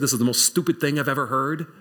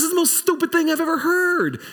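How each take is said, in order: First: Said in the usual way. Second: Put-on much higher, quick, scornful old woman; Sarah scoffing at God's promise, high and quick. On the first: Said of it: "in your heart of hearts you said". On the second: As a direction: toss it off like she can't believe the nonsense. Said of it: "She goes".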